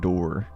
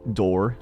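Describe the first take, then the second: First: The word is said in a Southern accent. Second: The word is said in a plain accent.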